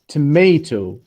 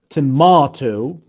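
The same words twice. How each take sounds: First: It is said with an American pronunciation. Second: It is said with a British pronunciation. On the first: "in American English" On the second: "in British English"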